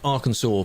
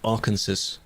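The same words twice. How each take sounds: First: The name is said the standard way. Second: The name is said a mangled way. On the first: The speaker calls it right. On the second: The speaker calls it wrong.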